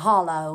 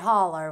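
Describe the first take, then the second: First: The word ends in an 'oh' sound. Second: The word ends in an 'er' sound. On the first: This is the standard way of saying it. "a hollow, I guess is the right way to say it" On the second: This is the local way of saying it. "I live up a holler, we call it"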